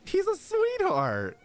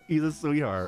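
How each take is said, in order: First: High, slow, doting coo over a cute character; gushing coo. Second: Said in the usual way. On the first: Real, not acted. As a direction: melt over him like he's adorable.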